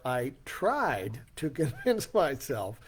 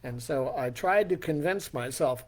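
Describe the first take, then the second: First: "I tried to convince myself" slowed right down, "tried" leaned on; repeating "tried to convince myself" slowly to underscore it; emphasised. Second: Said in the usual way. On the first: Shown as a demonstration. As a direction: underline "tried" with a slow, wry stress and a small laugh.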